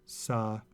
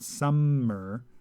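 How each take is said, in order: First: The m sound is short, single. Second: The m sound is held long, doubled. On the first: The speaker calls it right. "People pronounce summer as sa and mer" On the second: The speaker calls it wrong. "It's not summer"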